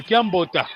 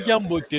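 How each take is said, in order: First: Kiambota ending in an open A; regional A ending. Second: Kiambote ending in an E sound. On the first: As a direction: say Kiambota with final A instead of E. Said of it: "le E, le A". (Kiambota, avec un A final) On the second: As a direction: say Kiambote with final E, not A. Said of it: "On dit Kiambote". (Kiambote, avec un E final) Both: Shown as a demonstration.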